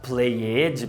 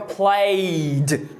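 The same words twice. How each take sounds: First: The ending is said as an extra syllable. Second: The ending adds no extra syllable. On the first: The speaker calls it wrong. "Dá uma vontade de falar played" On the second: The speaker calls it right. "no passado fica played"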